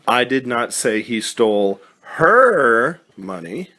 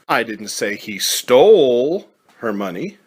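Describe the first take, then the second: First: The stress is on her. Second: The stress is on stole.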